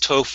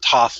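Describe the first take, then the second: First: The vowel is a long O sound. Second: The vowel is a short O sound. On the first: The speaker calls it right. "It is Toph with a long O, just like tofu" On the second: The speaker calls it wrong. "Not Toph like toffee"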